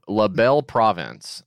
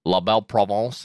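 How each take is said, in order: First: "Province" said the English way, like the word province; "La Belle Province" in plain English, no French nasal. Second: "Provence" said the French way, with a nasal vowel; "La Belle Provence" with a French nasal "Provence", not "Province"; French-style Provence. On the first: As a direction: stubbornly say "La Belle Province" his own way. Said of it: "I'm just gonna say it my way". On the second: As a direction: say "La Belle Provence" the way a Quebecer would. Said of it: "Is that how you would say it? French style?". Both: Shown as a demonstration.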